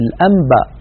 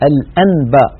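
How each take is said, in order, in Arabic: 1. تُقلب النون قبل b ميمًا. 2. تُنطق النون قبل b نونًا صريحة. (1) "قلب تلك النون إلى ميم" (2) "ولا يقول الواحد الأنباء"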